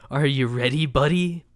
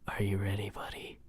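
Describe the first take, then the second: First: It is said in a normal voice. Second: It is said in a whisper.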